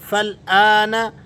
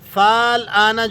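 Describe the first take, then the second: First: The first vowel is short and joins the l. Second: The first vowel is drawn out long. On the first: The speaker calls it right. "फ़ा को लाम से मिलाना है" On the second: The speaker calls it wrong. "फाल आना जो करके पढ़ते हैं, ये गलती कर जाते हैं"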